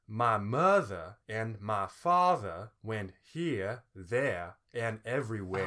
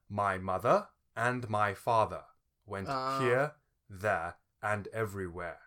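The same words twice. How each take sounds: First: It is said with a Southern American lilt. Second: It is said in a posh English accent. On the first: "you add a what they call the southern lilt" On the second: "it was derived from the sort of aristocratic English accent"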